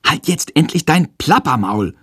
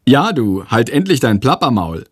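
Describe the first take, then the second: First: Exasperated call, pitched up; too-loud outburst. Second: Lightly mocking comment; cheeky. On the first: Pupil accidentally calling out in class, slightly too loud. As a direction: blurt it out a touch too forcefully. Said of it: "ruft er aus Versehen etwas zu laut". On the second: Giggling classmate parroting the outburst, cheeky. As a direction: toss it out with a touch of cheek. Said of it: "kommentiert er frech". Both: A narrator's reading.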